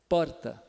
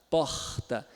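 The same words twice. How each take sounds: First: The R is a single quick tongue tap. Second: The R is a raspy fricative at the back. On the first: "o paulistano ... vibrante simples ... É uma batidinha breve" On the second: "Já o carioca ... fricativo plano velar surdo"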